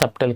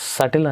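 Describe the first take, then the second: First: A b sound is heard in the middle. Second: No b sound is heard in the middle. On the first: The speaker calls it wrong. "సబ్టల్ కాదు" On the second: The speaker calls it right. "సటిల్ అని use చేయాలి"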